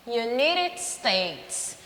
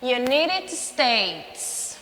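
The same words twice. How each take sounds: First: United States again slowly, stress on U-ni-ted; slow repeat. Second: United States slowly, stress on U-ni-ted; slow model. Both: Shown as a demonstration. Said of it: "Quem nasce nos ... Unidos da América?".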